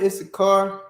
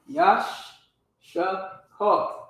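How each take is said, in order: First: The name starts with an 'iss' sound. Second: The name starts with a 'yash' sound.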